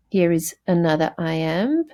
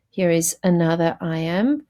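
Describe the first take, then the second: No difference in how they are said.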